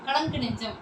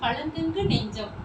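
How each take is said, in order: First: The 'ng' sound is short and ordinary. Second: The 'ng' sound is drawn out long. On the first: "சாதாரணமான இருக்கும்" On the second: "நீண்டு ஒலிக்குது"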